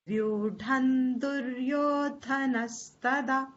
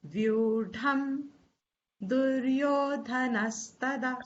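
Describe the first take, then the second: First: The first word ends with an n sound. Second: The first word ends with an m sound. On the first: "The makar is sounding as nakar" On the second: "Supposing you don't want to chant the nakar, you can always say"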